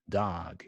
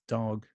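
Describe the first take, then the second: First: It is said with an American accent. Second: It is said with a British accent. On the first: "And dog in the in the U S. This is more like an ah sound" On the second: "U K is dog"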